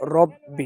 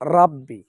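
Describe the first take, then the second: First: The first vowel is a rounded 'o' sound. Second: The first vowel is an open 'a' sound. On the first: The speaker calls it right. "বলতে হবে রব্বি" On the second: The speaker calls it wrong. "অধিকাংশ মানুষ বলতেছে রাব্বি, রা বলা যাবে না"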